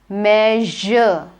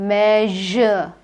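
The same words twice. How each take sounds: Both takes have the same delivery.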